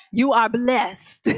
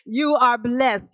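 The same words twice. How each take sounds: First: Slow, YOU punched; stress on you. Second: Slow, ARE leaned on; stress on are. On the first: Preacher telling the congregation they are blessed, stress on you. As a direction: hit the word you hardest. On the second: Preacher repeating the blessing to the church, stress on are. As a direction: land on the word are. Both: Shown as a demonstration.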